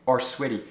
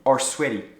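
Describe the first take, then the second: First: The end of 'are' is dropped before 'sweaty'. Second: The same.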